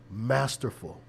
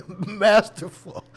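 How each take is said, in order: First: Said in the usual way. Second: Masterful drawn out slow, high and loud, laughing. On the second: Real, not acted. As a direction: stretch Masterful while laughing. Laughing emphatic repeat.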